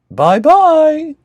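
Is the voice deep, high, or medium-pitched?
medium. It is said in a medium-pitched voice.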